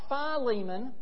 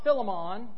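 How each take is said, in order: First: The name is said in an East Tennessee accent. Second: The name is said in a Jamaican accent. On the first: "It's not Philemon, okay? He's not from East Tennessee" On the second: "And it's not Philemon. He's not from Jamaica"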